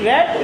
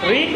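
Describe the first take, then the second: First: The vowel is short, like 'red'. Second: The vowel is long, like 'reed'. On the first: It is the past tense. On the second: It is the present tense.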